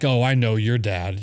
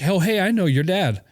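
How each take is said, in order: First: It sounds wary and disapproving. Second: It sounds warm and friendly.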